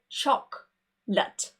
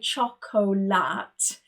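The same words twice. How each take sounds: First: The middle syllable is dropped. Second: The middle syllable is fully pronounced. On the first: The speaker calls it right. "We would just say" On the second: The speaker calls it wrong. "you don't say"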